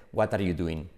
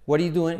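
First: Spanish teacher's accent, "wat ar yu duin"; Spanish-accented English. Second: Higher, louder "What are you doing?" as "wariu duen"; native linked pronunciation. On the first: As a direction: lower "What are you doing?" with full T and full "are". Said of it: "incluidos nuestros profes". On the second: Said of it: "Porque ellos dicen". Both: Shown as a demonstration.

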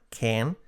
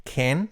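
First: CAN with an E-like vowel, "ken"; model pronunciation. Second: CAN with an open Spanish A, "kahn"; wrong pronunciation. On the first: Teacher giving learners the model, correct pronunciation. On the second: Teacher showing learners the mistake, wrong pronunciation. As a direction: say CAN as "kahn", end lifted. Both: Shown as a demonstration. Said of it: "nada de can".

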